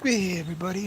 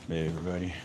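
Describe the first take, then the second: First: It is said with big, animated energy. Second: It is said flatly, with little energy.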